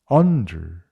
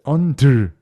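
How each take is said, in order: First: The last syllable is dropped weakly without force. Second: The last syllable is pushed out with force. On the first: The speaker calls it right. "버리셔야 돼요" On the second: The speaker calls it wrong. "이렇게 힘을 줘서 발음을 하는 게 아니라"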